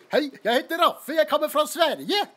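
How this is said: It is said with a cheerful Norwegian accent.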